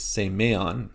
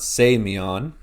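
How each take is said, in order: First: "semeon" said say-MAY-on; middle-syllable stress. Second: "semeon" said SAY-mee-on, first syllable louder; first-syllable stress. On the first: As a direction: put the weight on the middle of "semeon". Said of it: "it's semeon". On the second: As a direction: punch the start of "semeon". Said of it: "So it's not semeon". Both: Shown as a demonstration.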